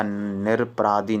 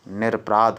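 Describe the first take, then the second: First: "निरपराधी" with an added ee; wrong form demonstrated. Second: "निरपराध" ending on dh; correct form demonstrated. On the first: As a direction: end "निरपराधी" on dhee. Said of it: "निरपराधी नहीं होता है". ("निरपराधी" के अंत में ई) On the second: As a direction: stop "निरपराध" at the consonant. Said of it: "निरपराध होता". ("निरपराध" अंत में ध) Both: Shown as a demonstration.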